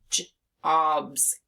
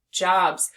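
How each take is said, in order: First: Jobs split into a j sound, then obs. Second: Said in the usual way. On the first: Shown as a demonstration. Teacher putting in a B, Jobs sounded out as j, obs. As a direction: break Jobs after the first sound. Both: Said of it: "take off that T and put a B here".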